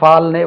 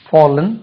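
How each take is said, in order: First: The first vowel is a Tamil-style open 'aa'. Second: The first vowel is a rounded English 'aw'. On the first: The speaker calls it wrong. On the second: The speaker calls it right.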